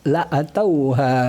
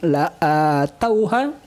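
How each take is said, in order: First: The vowel after the hamzah is kept short. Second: The vowel after the hamzah is lengthened.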